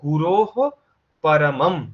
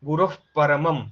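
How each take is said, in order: First: The visarga is a full h sound. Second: The visarga is broken off halfway. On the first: "সাধারণত আমাদের বলার কথা" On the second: "বিন্দুটাকে একটা আহ sound দিয়ে অর্ধেকেই break করতে হবে"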